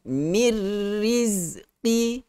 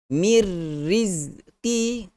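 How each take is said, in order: Both takes have the same delivery.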